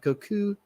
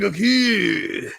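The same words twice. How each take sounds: First: The name is said lightly and relaxed. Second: The name is said with heavy overemphasis. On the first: The speaker calls it right. "a little bit more, you know, passively" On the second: The speaker calls it wrong. "not the whole Goku, like ooh, I'm Goku"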